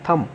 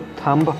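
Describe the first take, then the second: First: The final b sound is silent. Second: A final b sound is pronounced. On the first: The speaker calls it right. "इसको बोलते हैं थम" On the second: The speaker calls it wrong. "इसको थंब pronounce नहीं करना"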